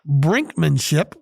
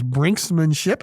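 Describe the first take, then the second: First: It is said without an s after brink. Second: It is said with an s after brink. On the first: "my word of the day ... is brinkmanship" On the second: "which I always heard it as brinksmanship"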